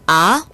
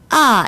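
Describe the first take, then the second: First: The pitch rises from low to high. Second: The pitch drops sharply from high to low. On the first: "이성은 아, 아 올라갔죠?" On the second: "사성은 아, 아 이렇게 뚝 떨어집니다"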